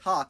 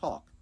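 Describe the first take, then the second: First: The vowel sounds like the vowel in 'cot'. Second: The vowel sounds like the vowel in 'caught'. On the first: The speaker has the cot-caught merger. "Otherwise, you would pronounce it like this, saying something more like talk" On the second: The speaker lacks the cot-caught merger. "instead of talk"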